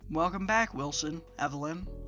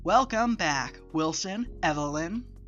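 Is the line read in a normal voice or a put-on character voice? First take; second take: normal; put-on. First: It is read in the speaker's ordinary voice. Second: It is read in a put-on character voice.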